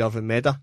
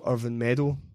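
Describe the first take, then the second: First: The last syllable ends in an 'uh' sound. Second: The last syllable ends in an 'oh' sound. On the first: "it'd be Irvin Meda" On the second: "the right pronunciation of Irvin Meadow"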